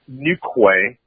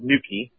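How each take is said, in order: First: The name is said in an American spelling-based way. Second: The name is said in the local way. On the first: The speaker calls it wrong. "Most Americans would say Newquay" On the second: The speaker calls it right. "but it's called Newquay"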